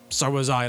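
It sounds angry and harsh.

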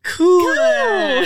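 It is said in an excited, lively tone.

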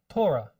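It is said with switched, Yiddish syllable stress. The speaker calls it wrong. "Yiddish, they take it and they switch the way the syllables are pronounced"

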